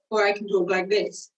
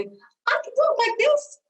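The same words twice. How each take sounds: First: Said in the usual way. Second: High pitch. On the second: Shown as a demonstration. Voice coach demoing a pitch change to students, high and slow. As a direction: talk slowly way up high in the voice. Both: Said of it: "That's a difference in pitch".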